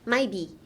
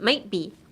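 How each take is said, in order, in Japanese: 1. mightのTは完全に落とします。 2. mightのTは止める音として残します。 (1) "No, don't make it that silent" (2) "silence the T, but put a ちっちゃいつin the might"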